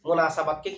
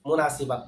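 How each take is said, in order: First: The vowel after the 's' is 'a'. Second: The vowel after the 's' is 'i'. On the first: The speaker calls it right. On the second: The speaker calls it wrong.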